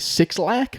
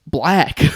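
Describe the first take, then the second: First: The name is said as two words, six and lack. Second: The name is said as the single word black. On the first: The speaker avoids saying a word that might sound awkward on air. "I either have to say Six Lack, which is what I did for a while" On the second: This is how the artist's name is meant to be said.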